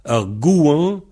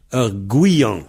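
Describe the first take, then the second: First: "Un gouan" straight from "gou" to "an"; no I inside "gouan"; variante sans I. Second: "Un gouillan" with a Y glide before "an"; variante avec I. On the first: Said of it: "Partout ailleurs, on dit un gouan". (« Un gouan » sans I au milieu) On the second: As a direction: put an I between "gou" and "an" in "gouillan". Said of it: "il y a un I entre gou et an". (« Un gouillan » avec un I au milieu) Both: Shown as a demonstration.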